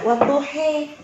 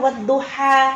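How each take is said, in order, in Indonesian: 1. Vokal akhirnya condong antara 'a' dan 'i'. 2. Vokal akhirnya adalah 'a' yang datar dan terbuka. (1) "Fathahnya mereka ada yang dimiringkan, bukan seperti kasrah" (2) "padahal kita wadduha kalau Indonesia"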